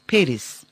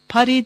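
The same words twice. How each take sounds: First: Paris is pronounced the English way. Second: Paris is pronounced the French way. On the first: The speaker calls it right. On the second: The speaker calls it wrong.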